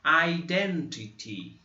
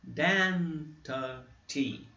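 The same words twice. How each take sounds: First: Identity very slow, syllable by syllable; teacher modelling a new word; slow word demo. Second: Identity very slow and softer; teacher repeating the word; slow soft demo. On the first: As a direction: stretch Identity out slowly. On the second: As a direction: repeat Identity slowly and gently. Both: Shown as a demonstration. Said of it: "três exemplos aqui".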